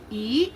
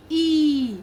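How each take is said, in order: First: "E" as a short i sound; quick, short vowel on "E". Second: "E" drawn out as a long ee. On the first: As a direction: keep "E" brief, not held. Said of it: "there is a difference between the two letters". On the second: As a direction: stretch and stress "E". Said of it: "in the sound". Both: Shown as a demonstration.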